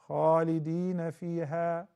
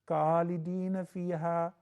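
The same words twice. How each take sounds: First: It begins with a rough, throaty kh sound. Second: It begins with a plain English k sound. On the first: The speaker calls it right. "The letter Kha" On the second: The speaker calls it wrong. "It used to be Kha, now it is Ka. That is not correct"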